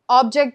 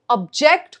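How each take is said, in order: First: The stress is on the first syllable. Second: The stress is on the second syllable. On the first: It is a noun meaning a thing. "just a thing" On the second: It is a verb meaning to disagree. "when you have a problem with something"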